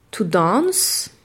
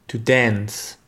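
First: To dance in British English; "to dance" with a long open a, "dahnce". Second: To dance in American English; "To dance" with a flat a, "dæns". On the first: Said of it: "le verbe danser se dira". (en anglais britannique, "dance" avec un a long) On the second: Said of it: "[name] le dira à la façon américaine". (en anglais américain, "dance" avec un a plat) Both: Shown as a demonstration.

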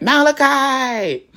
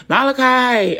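First: High, loud, drawn-out holler; nephew's copycat yell. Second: High, loud calling-out yell. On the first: Little nephew copying his aunt's yell, long imitated holler. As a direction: mimic a little kid echoing the yell, stretching it out. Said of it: "you hear my little nephew". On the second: Aunt calling someone in the basement, yelling. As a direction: holler the name down to the basement. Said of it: "and I'll yell. I'm like". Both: Retold or imitated.

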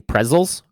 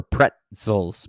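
First: Pretzels said as "prezels", no t sound; pretzels without t. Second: Pretzels said with a clear t, "pret-sels"; crisp t in pretzels. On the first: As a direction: soften pretzels to prezels, dropping the t. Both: Shown as a demonstration. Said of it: "Are you saying pretzels or pretzels".

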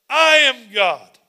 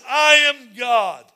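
First: Slow and loud, every word weighed; slow loud declaration. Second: Slow booming shout. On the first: Pastor repeating God's words to the church, slow and loud. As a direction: proclaim it with full authority. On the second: Pastor voicing God declaring himself, slow booming shout. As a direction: boom it out slowly as God. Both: Acted.

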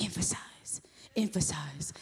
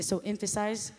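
First: Mock whispered repeat of the word; teasing whisper. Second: Said in the usual way. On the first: Husband Gilbert teasing her about her word, mock whisper. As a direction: whisper emphasize, emphasize to tease her. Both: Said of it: "he's gonna be like".

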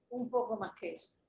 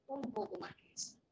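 First: Said in the usual way. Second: "Un poco más que eso" repeated much softer, to sink in. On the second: Shown as a demonstration. (repetición en voz baja de "Un poco más que eso")

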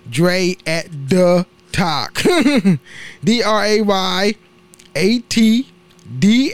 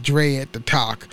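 First: Slow, word-by-word "Dre at the Talk"; slowly spelled-out handle. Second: Said in the usual way. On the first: Real, not acted. Repeats handle slowly for listeners.

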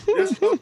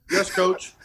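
First: A mock little-boy yes, high up; high-pitched repeat. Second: Mock-meek reply, breaking into laughter; laughing through it. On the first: Punter mimicking his own reply to the coach, high-pitched. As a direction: squeak it out much higher. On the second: Punter answering his coach, laughing. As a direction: giggle out a sheepish yes.

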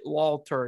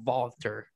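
First: Walter opening on a plain English W; anglicized Walter, W not turned to V; English W sound. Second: Walter with the W said as a V; corrected German Walter, opening on a V; German V sound. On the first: Retold or imitated. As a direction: say "Walter" with W as in "wall". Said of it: "They probably pronounce it Walter instead of". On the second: Shown as a demonstration. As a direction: say "Walter" as "Valter". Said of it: "instead of Walter".

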